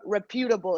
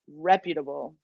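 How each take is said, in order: First: The stress is on the second syllable. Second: The stress is on the first syllable. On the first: The speaker calls it wrong. "It's not reputable" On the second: The speaker calls it right. "It's reputable"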